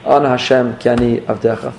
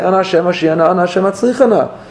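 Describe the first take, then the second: First: Humble plea. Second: High, driving plea for success; intense kavanah. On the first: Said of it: "put a little more emphasis on the Ana Hashem". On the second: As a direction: push it like you're demanding. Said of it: "I have all this Kavanah when I say". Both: Shown as a demonstration.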